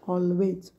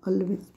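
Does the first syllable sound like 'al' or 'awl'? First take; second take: awl; al. First: The first syllable sounds like 'awl'. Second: The first syllable sounds like 'al'. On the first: The speaker calls it right. "पण ह्याचं प उच्चार होतो ऑलवेज" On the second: The speaker calls it wrong. "आपण अल्वेज म्हणतो बघा"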